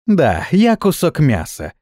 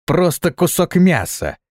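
First: Laughing. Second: Contemptuous. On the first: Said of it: "засмеялась Ганга". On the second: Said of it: "возмутилась та". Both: A narrator's reading.

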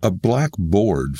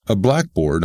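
First: "blackboard" as two words, black BOARD, both stressed; slow "blackboard" down, giving BOARD its own full stress. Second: "blackboard" as one word, BLACK-board; compound stress. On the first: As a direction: separate adjective and noun in "blackboard". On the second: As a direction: hit BLACK in "blackboard" and let board drop. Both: Shown as a demonstration. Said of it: "something interesting happens to the accentuation".

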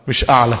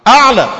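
First: Said in the usual way. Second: أعلى said high and loud, falling; stress on أعلى. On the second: Shown as a demonstration. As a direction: punch the word أعلى hard and high.

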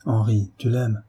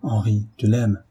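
First: Said in the usual way. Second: Grave and sad. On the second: A narrator's reading. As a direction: state it gravely to a friend, with sadness. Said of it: "reprit d'un ton grave et triste". (ton grave et triste)

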